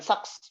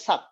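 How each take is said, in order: First: The word ends on an s sound. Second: The word ends on a k sound. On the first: The speaker calls it wrong. "bukan saks" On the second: The speaker calls it right. "betul, dibacanya sak. Jadi S-nya nggak dibaca nih"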